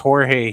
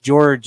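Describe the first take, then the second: First: The name begins with an H sound. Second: The name begins with a J sound. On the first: The speaker calls it right. "it's Jorge" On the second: The speaker calls it wrong. "It's not pronounced George"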